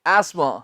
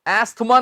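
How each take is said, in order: First: No 'th' sound is heard in the middle. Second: A 'th' sound is heard in the middle. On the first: The speaker calls it right. "एस्मा हो गया है" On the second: The speaker calls it wrong. "एस्थमा नहीं"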